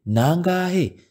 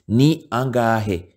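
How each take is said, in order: First: One joined word with the vowels merged. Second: Two separate words with both vowels pronounced. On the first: "when it is pronounced, we say" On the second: "the way it is written, you can read as as it is"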